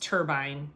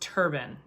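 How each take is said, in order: First: The second syllable rhymes with 'line'. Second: The second syllable sounds like 'bun'. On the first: The speaker calls it wrong. "So not pronounced turbine" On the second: The speaker calls it right. "pronounced turban"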